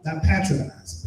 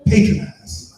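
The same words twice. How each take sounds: First: Patronize said PAT-ronize, short a as in cat; wrong pronunciation. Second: Patronize said PAY-tronize, long a as in pay, punched loud; correct pronunciation. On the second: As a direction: say patronize as PAY-tro-nize, stressed and loud. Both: Shown as a demonstration. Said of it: "Is that the right word to say it?".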